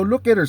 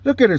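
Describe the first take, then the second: First: Said in the usual way. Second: Raised retold scolding of the cop; louder rebuke. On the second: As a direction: Look at her barked higher and louder.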